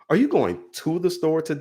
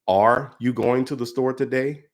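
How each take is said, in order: First: The word 'going' carries the strongest stress. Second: The word 'are' carries the strongest stress. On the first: "going down the line of each word" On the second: "put an emphasis on every word in that sentence, going down the line of each word"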